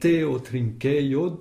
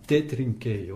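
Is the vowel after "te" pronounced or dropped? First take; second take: pronounced; dropped. First: The vowel after te is fully pronounced. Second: The vowel after te is dropped entirely. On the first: "le O de teo a été enlevé" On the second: "l'élision du O de teo"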